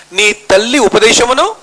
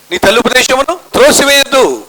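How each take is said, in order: First: Slow, rising on ఉపదేశమును; slow scripture quote. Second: Higher, stress landing on త్రోసివేయద్దు; emphatic scripture quote. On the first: Preacher begins quoting the Bible to the congregation, slow. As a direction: set up the verse slowly. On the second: Preacher declaring the Bible verse to the congregation, emphatic. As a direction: finish the verse with weight. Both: Acted.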